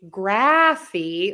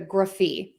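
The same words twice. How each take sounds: First: The first vowel is a full 'a' as in graph. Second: The first vowel is a short, reduced 'uh'. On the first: The speaker calls it wrong. "I'm not going to say graphy like the word graph" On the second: The speaker calls it right. "I'm using that schwa sound, that short, quick uh sound in there"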